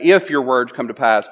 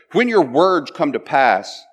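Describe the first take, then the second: First: Said in the usual way. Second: "When" stressed firmly, the whole phrase slowed; emphatic when. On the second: Shown as a demonstration. Preacher stressing "When" in the verse, slow and firm. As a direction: lean hard on "When" and take it slowly. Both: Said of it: "said fairly emphatically".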